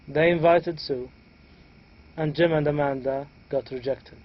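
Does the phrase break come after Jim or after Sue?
after Sue. The voice rises and breaks after Sue. Only one person was invited and the rest were rejected. "here we had a raising intonation at the beginning, then the intonation fold, starting from and Jim and Amanda got rejected"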